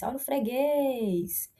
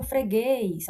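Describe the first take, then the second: First: Slow call, "guês" in "freguês" stressed and drawn out; stretched last syllable. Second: Said in the usual way. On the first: Shown as a demonstration. Teacher showing students the strong syllable trick, stretched last syllable. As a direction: hold the final "guês" of "freguês". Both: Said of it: "esse macete que eu tô fazendo aqui".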